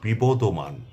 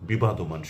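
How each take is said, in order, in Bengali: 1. দ্বিতীয় অক্ষরে ছোট 'o' স্বরধ্বনি আছে। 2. দ্বিতীয় অক্ষরে খোলা 'a' স্বরধ্বনি আছে। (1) "এটির শুদ্ধ রূপ হচ্ছে" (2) "যা সম্পূর্ণ ভুল"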